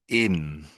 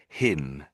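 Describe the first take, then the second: First: The word starts without an h sound. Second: The word starts with an audible h sound. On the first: The speaker calls it wrong. "you missed out the pronouncing the H at the beginning of the word" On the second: The speaker calls it right. "we always say him"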